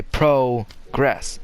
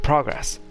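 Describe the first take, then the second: First: "progress" split as PROH, gress; slow "progress" in two separate pieces; halting long-o pronunciation. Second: "progress" in one go as PRAH-gress; "progress" with a short o, no stop; short-o pronunciation. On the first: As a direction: stop after the long "pro" in progress. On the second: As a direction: say progress with an open ah, unbroken. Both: Shown as a demonstration. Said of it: "like you stop and say".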